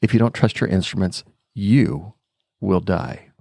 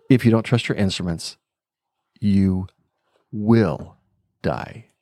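First: "you" set apart by pauses and stressed. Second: "you", "will", "die" each alone, "will" held; stress on "will". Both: Retold or imitated. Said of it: "he emphasized a different word each time".

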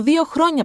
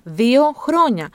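First: Said in the usual way. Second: Δύο χρόνια said very slowly, each word weighed; slow emphatic repeat. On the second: Shown as a demonstration. To parents, stressing how young a toddler is, slow.

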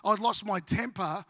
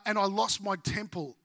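First: "temper" said right, with a clear final "per"; correcting "temple" to "temper"; carefully fixed "temper"; self-correction. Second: "temple" said for temper, ending in "pull"; tongue-slip "temple" in place of temper; "temple" blurted by mistake. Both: Real, not acted. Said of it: "oh, sorry, my temple".

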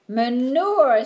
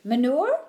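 First: Manure, said louder with a proud falling tune; triumphant. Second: Manure? asked with a rising questioning tune; doubtful one-word question, tune rising; puzzled question. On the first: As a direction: announce Manure proudly, firm fall. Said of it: "said Winnie triumphantly". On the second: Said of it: "asked Willie". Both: A narrator's reading.

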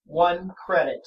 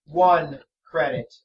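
First: Level flat monotone; deadpan haggling monotone. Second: Slow, flat monotone; deadpan stubborn haggling. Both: Acted. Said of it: "same flat monotone voice over and over".

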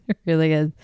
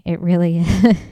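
First: Said in the usual way. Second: Laughing. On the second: Real, not acted. Laughing at own rant.

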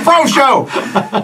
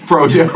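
First: "Frocio" said FRO-sho, pitched high; corrected name. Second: "Froyo" said as FRO-yo; mispronounced name. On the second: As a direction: say "Froyo" like frozen yogurt, fro-yo. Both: Shown as a demonstration. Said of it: "You all were not called by his name".

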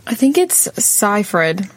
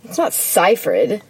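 First: "Seyfried" said as SIGH-fried; saying Seyfried. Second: "Seyfried" said as SEE-fried, stress on not; other Seyfried. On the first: Friends settling a name, "Seyfried" as SIGH-fried. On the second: Correcting a friend's "Seyfried", SEE-fried. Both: Shown as a demonstration. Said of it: "is it Seyfried or?".

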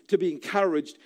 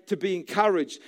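Both takes have the same delivery.

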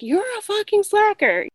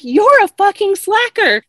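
First: Retold swearing. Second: High, loud imitation of an irate client; retold angry insult. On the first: Client swearing as she storms out, lighter imitated anger. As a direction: mimic her parting insult at a high pitch. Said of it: "she kept swearing". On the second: Refused client swearing at her hairdresser, mock-angry outburst. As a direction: hurl the insult, mimicking her outrage.

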